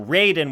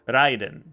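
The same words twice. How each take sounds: First: The name is said with English vowel sounds. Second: The name is said with Japanese vowel sounds. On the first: The speaker calls it wrong. "So Raiden would be wrong" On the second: The speaker calls it right. "if you go with like the actual Japanese pronunciation"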